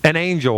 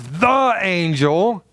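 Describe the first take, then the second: First: "an" lightly leaned on, falling; stress on an. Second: "the" drawn out slowly, rising; stress on the. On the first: Pastor explaining an ordinary angel, stress on "an". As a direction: tap the word "an". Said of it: "then it would be". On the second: Pastor contrasting with Gabriel, slow stress on "the". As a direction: linger on "the" slowly. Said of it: "But when it says". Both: Shown as a demonstration.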